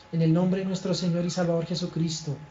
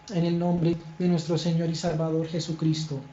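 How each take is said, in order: No difference in how they are said.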